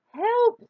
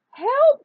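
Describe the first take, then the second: First: High loud panicked cry; cry for help. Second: Very high shrill-loud cry for help; panicked shout. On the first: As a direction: yell for help. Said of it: "the animals cried". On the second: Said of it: "cried Anansi". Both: A narrator's reading.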